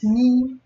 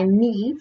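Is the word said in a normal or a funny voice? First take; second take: funny; normal. First: It is said in a funny voice. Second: It is said in her normal voice.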